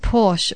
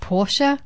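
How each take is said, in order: First: The word ends without an extra vowel sound. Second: The word ends with an extra vowel sound. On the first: The speaker calls it wrong. "I thought it was Porsche for the last 14 years of my life" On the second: The speaker calls it right. "Porsche is actually pronounced Porsche"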